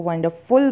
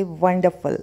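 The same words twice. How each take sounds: First: वंडरफुल ending in a full "FULL"; wrong pronunciation. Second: वंडरफुल ending in a weak "fuhl"; correct pronunciation. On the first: (वंडरफुल में फुल वाला गलत उच्चारण) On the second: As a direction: model वंडरफुल with falling "फल" ending. (वंडरफुल में फल वाला सही उच्चारण) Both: Shown as a demonstration. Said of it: "आप गलत उच्चारण कर रहे थे".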